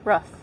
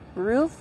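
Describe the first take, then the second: First: The vowel is short, as in 'foot'. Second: The vowel is long, as in 'boot'.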